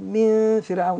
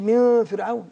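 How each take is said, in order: First: The nasal sound is full and heavy. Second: The nasal sound is thin and light. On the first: The speaker calls it right. "اقول من فرعون. يعني احاول اخلي الغنه تناسب الايه" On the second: The speaker calls it wrong. "ما اقولش من فرعون"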